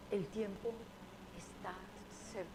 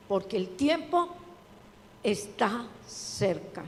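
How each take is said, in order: First: Soft, hushed El tiempo está cerca fading to almost nothing; gentle hushed delivery of El tiempo está cerca. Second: Preached El tiempo está cerca with slowed está cerca; emphatic, slowed. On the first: Quoting God's words. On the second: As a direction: drive home está cerca, slowly. Preacher reading the verse aloud. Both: Acted.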